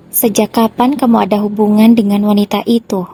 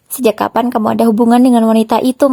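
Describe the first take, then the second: First: Said in the usual way. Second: A touch of hurt anger, pressing him; full of emotion. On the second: A narrator's reading. Wife confronting her cheating husband, mildly angry. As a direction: demand an answer, mildly heated. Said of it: "tanyaku dengan penuh emosi".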